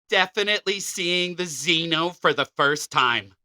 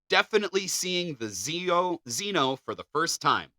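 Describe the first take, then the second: First: It is read in a funny put-on voice. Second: It is read in a normal speaking voice.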